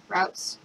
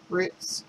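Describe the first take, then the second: First: "Routes" said with an ow vowel, like outs; Routes rhymed with outs. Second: "Roots" said with a long oo vowel, like boots; Roots rhymed with boots. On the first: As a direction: say "Routes" as "rowts" with an ow sound. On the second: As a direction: say "Roots" as "rootz" with an oo sound. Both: Shown as a demonstration. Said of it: "whatever you wanna say".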